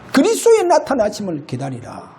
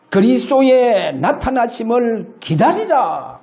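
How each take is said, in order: First: Said in the usual way. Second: Verse read slowly. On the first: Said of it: "그래 말합니다". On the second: Shown as a demonstration. Pastor reading the verse to the congregation, slow and solemn. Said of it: "고린도전서 일 장 칠 절".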